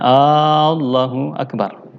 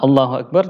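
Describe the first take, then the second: First: The opening vowel is drawn out long. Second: The opening vowel is short. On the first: It asks whether God is the Greatest. The speaker calls it wrong. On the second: It states that God is the Greatest. The speaker calls it right.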